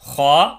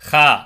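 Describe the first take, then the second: First: It is said heavy, tongue raised and lips rounded. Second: It is said light and flat, tongue kept low. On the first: The speaker calls it right. "நாவை உயர்த்தி கனமான உச்சரிப்போடு வாயை குமித்து சொல்லணும்" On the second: The speaker calls it wrong. "அப்படி படிக்கக்கூடாது"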